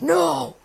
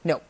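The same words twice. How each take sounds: First: The word is said with lively, varied pitch. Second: The word is said flat, in one pitch. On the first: The speaker calls it wrong. "You can't be like" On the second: The speaker calls it right. "you have to be very monotone"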